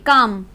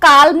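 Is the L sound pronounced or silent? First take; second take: silent; pronounced. First: The L sound is left silent. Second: The L sound is clearly pronounced. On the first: The speaker calls it right. "काम बोलेंगे" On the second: The speaker calls it wrong. "इसको काल्म नहीं बोलेंगे"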